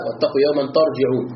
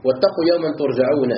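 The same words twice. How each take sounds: First: ترجعون said tarjiʿūn, a then i; ترجعون with active vowels, tarjiʿūn; ترجعون read as tarjiʿūn. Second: ترجعون said turjaʿūn, u then a; ترجعون with passive vowels, turjaʿūn; ترجعون read as turjaʿūn. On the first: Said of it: "ترجعون ببناء للفاعل". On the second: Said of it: "بالبناء للمفعول". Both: Shown as a demonstration.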